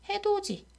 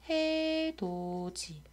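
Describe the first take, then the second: First: The last syllable starts with a ch sound. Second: The last syllable starts with a t sound. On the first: "실제로는 디귿과 이가 만났기 때문에 지로 바뀐다" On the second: "원래는 해돋이라고 연음되어야"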